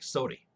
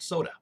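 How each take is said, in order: First: The word ends with an 'ee' vowel. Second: The word ends with an 'uh' vowel. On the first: "a lot of people in Missouri still pronounce it that way" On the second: "I call it soda"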